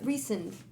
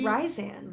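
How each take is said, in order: First: The first syllable sounds like 'ree'. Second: The first syllable sounds like 'rye'. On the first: This is the way others say it is pronounced. The speaker calls it right. "That's how you pronounce it?" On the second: This is how the speaker used to say it. The speaker calls it wrong. "I was always saying"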